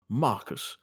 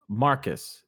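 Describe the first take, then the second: First: It is said in a fancy British voice. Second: It is said in a normal voice.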